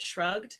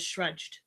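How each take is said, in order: First: The word ends with a hard g sound. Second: The word ends with a j sound. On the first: The speaker calls it right. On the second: The speaker calls it wrong.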